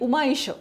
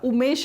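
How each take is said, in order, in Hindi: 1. दोनों स्वर अलग-अलग बोले जाते हैं, एक के बाद एक। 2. दोनों स्वर मिलकर एक 'ए' की ध्वनि बन जाते हैं। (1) "हे दोनही" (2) "पटकन आपण जर म्हटलं तर आपोआपच त्याचा उमेश अशा प्रकारे उच्चार होतो"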